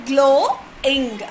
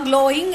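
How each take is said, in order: First: "glowing" split into glow, ing with a gap; syllable by syllable. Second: Said in the usual way. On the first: Shown as a demonstration. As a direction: stretch and separate both beats of "glowing". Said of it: "O is one vowel sound". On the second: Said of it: "glowing is two syllable".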